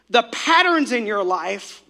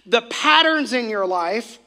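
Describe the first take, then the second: No difference in how they are said.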